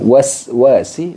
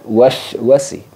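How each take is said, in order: First: The first syllable ends in a hissing 's'. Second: The first syllable ends in a 'sh' sound. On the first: The speaker calls it right. "Jadi menggunakan sin. Harus ada desis" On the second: The speaker calls it wrong. "bukan wash wasi"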